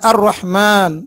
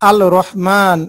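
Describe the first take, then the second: First: The article's L blends into the following R sound. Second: The article's L is clearly pronounced before R. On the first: The speaker calls it right. "আমরা বলি" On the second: The speaker calls it wrong. "বলি না"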